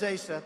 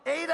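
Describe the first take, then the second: First: The middle consonant is an S sound. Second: The middle consonant is a D sound. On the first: The speaker calls it right. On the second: The speaker calls it wrong.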